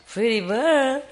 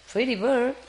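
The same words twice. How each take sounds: First: High squawky parrot saying Pretty bird. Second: High sing-song Pretty bird to a pet; cooing pet talk. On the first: Retold or imitated. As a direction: mimic the bird's Pretty bird. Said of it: "he told me". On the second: Real, not acted.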